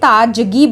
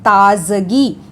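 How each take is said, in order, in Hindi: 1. बीच का व्यंजन 'j' ध्वनि है। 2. बीच का व्यंजन 'z' ध्वनि है। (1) "अगर ये शब्द ऐसे ही होता तो हम उसे ताजगी बोलते" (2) "इस डॉट के लग जाने पे ही ज का जे साउंड बदल के जेड बन जाता है"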